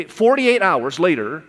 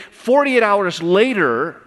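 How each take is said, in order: First: Said in the usual way. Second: "Forty-eight hours later" said slowly, higher and louder, leaning on "Forty-eight"; emphatic stress. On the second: Shown as a demonstration. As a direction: hit "Forty-eight" hard and stretch the whole phrase. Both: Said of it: "okay, forty-eight hours later".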